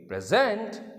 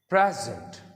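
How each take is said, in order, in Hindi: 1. Stress दूसरे syllable पर है। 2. स्ट्रेस पहले सिलेबल पर है। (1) "सेकंड सिलेबल पर स्ट्रेस रखेंगे" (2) "प्रे पर प पर स्ट्रेस को रखेंगे"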